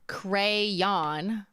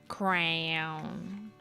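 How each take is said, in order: First: The word is said with two syllables. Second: The word is squeezed into one syllable. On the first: The speaker calls it right. "I know it's crayon" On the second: The speaker calls it wrong. "they kind of blend"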